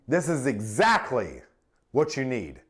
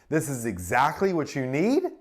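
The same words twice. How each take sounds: First: It is said confidently, with strategic emphasis. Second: It is said hesitantly, sounding unsure. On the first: The speaker seems caring and authoritative. The speaker calls it right. "Strategic emphasis. It sounds confident, caring, and authoritative" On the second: The speaker seems to be seeking approval. The speaker calls it wrong. "Sounds unsure, like I'm seeking approval"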